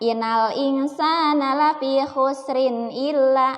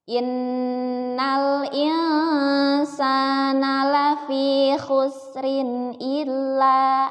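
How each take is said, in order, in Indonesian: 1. Huruf nun ganda dipotong pendek, tidak ditahan. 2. Huruf nun ganda dibaca panjang dan didengungkan. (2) "maka harus ditekan ya, ditekan"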